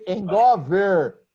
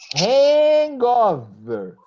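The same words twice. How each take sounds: First: The H at the start is dropped. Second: The H at the start is clearly pronounced.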